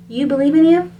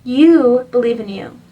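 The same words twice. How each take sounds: First: "You believe in you?" with a rising question tune on "in you"; asking question. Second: Said in the usual way. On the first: Shown as a demonstration. Reader checking if the listener believes in themselves, asking. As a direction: turn it into a gentle question, lift at the end.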